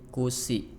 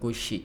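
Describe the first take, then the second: First: The consonant is a plain thin s. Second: The consonant is a thick sh sound. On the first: The speaker calls it wrong. "tadi kusi" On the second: The speaker calls it right. "bukan kushi"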